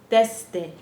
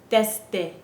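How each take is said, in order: No difference in how they are said.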